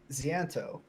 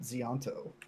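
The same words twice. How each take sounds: First: The name is said without an added syllable. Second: The name is said with an extra sound added. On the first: The speaker calls it right. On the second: The speaker calls it wrong.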